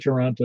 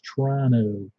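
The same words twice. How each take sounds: First: The second t is clearly pronounced. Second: The second t is dropped, like Tron-o. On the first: The speaker calls it wrong. "you're pronouncing it wrong" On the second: The speaker calls it right. "like Tron O"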